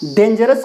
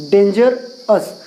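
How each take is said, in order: First: Said in the usual way. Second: Slow, syllable by syllable: dangerous as डें-जर-स; split into syllables. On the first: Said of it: "dangerous ऐसा होगा". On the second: Shown as a demonstration. Teacher splitting a word into syllables for students, slow. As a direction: draw out dangerous, one part at a time. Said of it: "तो dangerous ऐसा होगा".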